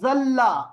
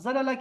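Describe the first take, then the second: First: The two l sounds merge into one doubled l. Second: The two l sounds are separated by a vowel. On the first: "हम कहते हैं ज़ल्ला" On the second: "ज़लला की जगह"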